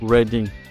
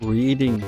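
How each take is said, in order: First: The first vowel is short, as in 'red'. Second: The first vowel is long, as in 'reed'. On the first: The speaker calls it right. "இது ரெட்டிங்" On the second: The speaker calls it wrong. "அப்படி சொன்னவங்கலாம் தப்பு"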